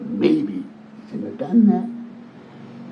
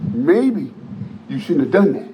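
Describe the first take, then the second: First: The voice is quieter and lower. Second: The voice is at normal loudness.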